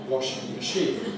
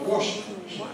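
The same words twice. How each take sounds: First: The stress falls on the word machine. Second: The stress falls on the word washing. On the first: The speaker calls it wrong. "Not a washing machine" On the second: The speaker calls it right. "but a washing machine"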